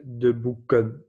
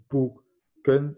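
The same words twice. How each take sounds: First: Said in the usual way. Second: "boeken" in two slow separate beats, boe, ken; split into syllables. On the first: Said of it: "au pluriel". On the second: Shown as a demonstration. Teacher counting syllables for learners, "boeken" broken in two. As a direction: say "boeken" slowly, pausing between its syllables. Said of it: "c'est deux syllabes".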